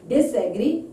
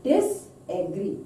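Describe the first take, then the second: First: Said in the usual way. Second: "Disagree" slowly, with a gap after Dis; prefix broken off. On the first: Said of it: "meaning is become opposite here". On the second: Shown as a demonstration. Teacher showing dis is prefix, "Disagree" said in two parts. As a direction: split "Disagree" into dis, then agree. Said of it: "Dis is prefix".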